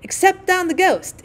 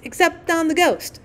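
First: High, slow gleeful cry; gleeful shriek. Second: High chanted repeat; gleeful shriek. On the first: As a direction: shriek it with mischief. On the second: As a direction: twins echoing each other in glee. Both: A narrator's reading. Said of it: "shrieked the twins".

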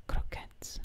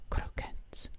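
No difference in how they are said.

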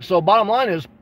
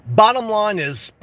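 First: Said in the usual way. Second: "bottom line is" said again slowly, weight on "bottom"; slow emphatic repeat. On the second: Shown as a demonstration. To his chat, slowing "bottom line is" for emphasis.

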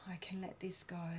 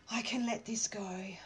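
First: A calming whispered affirmation. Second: Soft affirmation voiced. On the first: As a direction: whisper I can let this go. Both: Shown as a demonstration. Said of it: "a bit of a release".

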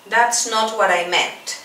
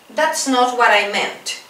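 No difference in how they are said.

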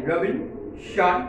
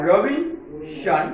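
First: রবিনসন drawn out very slowly in two parts; syllable by syllable. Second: রবিনসন spoken very slowly as রবিন-সন, syllable by syllable; split into syllables. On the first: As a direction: spell it out by sound: রবিন then সন. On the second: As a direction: break রবিনসন into two parts as you say it. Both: Shown as a demonstration. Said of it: "দুই ভাগে ভাগ করে উচ্চারণ করবে".

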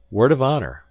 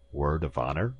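First: "Word of honor" high and loud, falling; emphatic pledge. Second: "Word of honor?" rising at the end; questioning. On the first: Visitor swears to the professor, "Word of honor" emphatic and falling. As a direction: hit "Word" hard, drop on "honor". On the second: Professor demands a pledge, "Word of honor?" asked with a rise. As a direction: lift "honor" into a probing question. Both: A narrator's reading.

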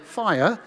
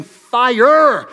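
First: Weaker British "fire", softer than the American one; British accent. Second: Strong, loud American pronunciation of "fire"; American accent. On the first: Preacher comparing accents for the congregation, understated British. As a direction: say "fire" in British, dropping the final R. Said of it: "than as a British person saying". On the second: Preacher comparing accents for the congregation, strong loud American. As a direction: hit "fire" big, with a hard American R at the end. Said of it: "As an American, saying fire". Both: Shown as a demonstration.

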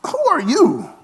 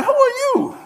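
First: A higher, lightly put-on "Who are you?"; mock puzzled. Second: Squeaky high disbelieving "Who are you?"; mock dismissive. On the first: Pastor plays the unimpressed congregation, lightly mock puzzled. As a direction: ask it like you're eyeing a stranger. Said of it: "I'm like". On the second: Israelites snub Moses when he arrives, high mock disbelief. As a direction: toss it off way up high like you don't recognize him. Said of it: "they like".

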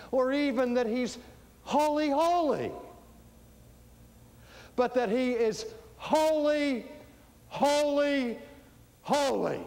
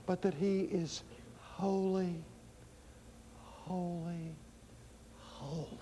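First: High, loud, each word set apart; ringing proclamation. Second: Fading softer with each word; hushed reverence. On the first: Preacher proclaiming the threefold holy, ringing and forceful. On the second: Preacher repeating that he is holy, hushed reverence. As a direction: let each holy sink towards silence, long pauses. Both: Real, not acted.

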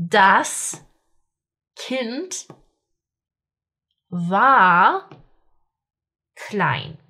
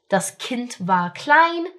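First: Das Kind war klein, each word alone with long pauses. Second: Said in the usual way. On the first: Shown as a demonstration. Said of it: "Okay, so das Kind war klein". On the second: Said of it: "smooth recap of the drill sentences".

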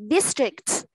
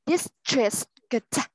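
First: District said quickly in one clipped go; fast model. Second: District said slowly, every sound drawn out; slow model. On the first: Teacher reads district fast for the class. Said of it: "Mình đọc nhanh này". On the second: Teacher reads district slowly for the class. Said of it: "Mình đọc chậm đấy". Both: Shown as a demonstration.

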